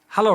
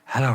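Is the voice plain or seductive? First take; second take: plain; seductive. First: It is said in a plain voice. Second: It is said in a seductive voice.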